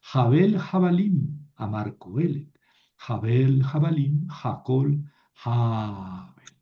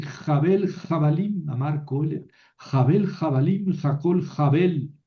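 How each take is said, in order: First: The final Jabel said with the pausal stress on the first syllable, JA-bel, falling; the correct reading, ending on Jabel stressed on JA and falling away; teacher models the right reading, final Jabel stressed on JA. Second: Imitating a priest who reads Jabel, Jabalim with a harsh Spanish j and puts the stress on the last syllable of the final Jabel; mocking the seminarian's bad reading: Jabel with a Spanish jota and the final Jabel stressed at the end; mock wrong reading. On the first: Shown as a demonstration. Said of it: "no, Jabel".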